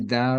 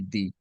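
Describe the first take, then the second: First: The vowel is a short 'uh' sound. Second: The vowel is a long 'ee' sound. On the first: The next word starts with a consonant sound. "So da is with a consonant sound" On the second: The next word starts with a vowel sound. "When I say di the most of the time is because you have a vowel next"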